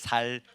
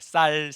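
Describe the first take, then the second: First: The first consonant is plain and soft. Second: The first consonant is tense and hard. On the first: "된소리가 안 되나 봐" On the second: "쌀이 아니고"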